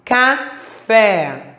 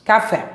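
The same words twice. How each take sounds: First: Café split CA, FÉ with stressed last syllable. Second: Said in the usual way. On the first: Shown as a demonstration. Teacher showing the tonic syllable, syllable by syllable. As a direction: pause inside Café and lean on FÉ. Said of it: "Fé é a sílaba tônica". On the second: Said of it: "Leia as palavras a seguir em voz alta".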